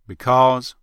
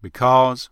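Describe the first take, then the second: First: It is said in a Texas accent. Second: The same.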